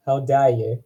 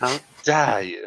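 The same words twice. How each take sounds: First: Attempted New Zealand accent on an indignant line. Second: Drawn-out, higher New Zealand accent; hammed-up New Zealand accent, stretched slowly. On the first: Showing how to say it, New Zealand accent. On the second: Retrying the offended line as told, exaggerated New Zealand accent. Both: Shown as a demonstration. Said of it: "say it in a New Zealand accent".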